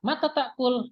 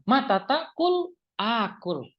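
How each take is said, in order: First: Mata takul asked with a high lift; question intonation. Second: Mata takul akul slow, falling on takul; conditional statement tune. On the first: Teacher contrasting the question reading, pitch raised. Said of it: "berarti dia bertanya". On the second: Teacher contrasting the conditional reading, slow and falling. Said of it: "intonasi juga itu bisa membantu". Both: Shown as a demonstration.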